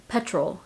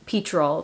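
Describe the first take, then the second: First: PETROL said softer, as PET-rol; second attempt. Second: PETROL drawn out slowly as PEE-trol; attempted British word. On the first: US vlogger retrying the British word, PETROL softly as PET-rol. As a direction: correct yourself to PETROL with a short e, PET-rol. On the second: US vlogger unsure what Brits say, PETROL tried as PEE-trol. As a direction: try PETROL slowly, with a long ee first. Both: Shown as a demonstration. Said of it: "but y'all say petrol".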